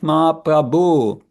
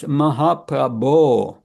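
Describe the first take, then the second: First: The 'bho' syllable lacks the clear 'bo' sound. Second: The 'bho' syllable has a clear 'bo' sound. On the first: The speaker calls it wrong. "not Mahaprabhu. That's wrong" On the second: The speaker calls it right. "It's Mahaprabhu"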